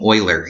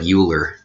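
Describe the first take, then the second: First: The name begins with an 'oy' sound. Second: The name begins with a 'yoo' sound. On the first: The speaker calls it right. "You pronounce the name Euler" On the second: The speaker calls it wrong. "even though it looks like Euler"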